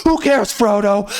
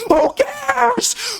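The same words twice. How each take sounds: First: Said in the usual way. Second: Very high, crying mock wail; mock whiny shriek. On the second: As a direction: wail it like a whining child. Mocking Frodo's quest.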